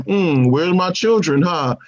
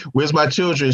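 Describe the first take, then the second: First: Put-on Wanda's accent. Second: Said in the usual way. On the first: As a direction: draw the question out in a mock Sokovian accent. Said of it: "I like how that accent, like, comes and goes". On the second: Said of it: "Wanda's like, Yo".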